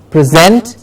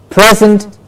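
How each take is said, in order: First: PreSENT, as "prih-ZENT"; stress on second syllable. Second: PREsent, as "PREZ-ent"; stress on first syllable. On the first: Teacher contrasting word pairs, back-stressed preSENT. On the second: Teacher contrasting word pairs, front-stressed PREsent. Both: Shown as a demonstration. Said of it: "Do you hear the difference?".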